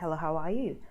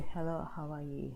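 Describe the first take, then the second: First: The voice is light and energetic. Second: The voice is heavy and low in energy. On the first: The speaker feels free of worries. The speaker calls it right. "I'm just very light" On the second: The speaker feels weighed down by worries. The speaker calls it wrong. "As opposed to"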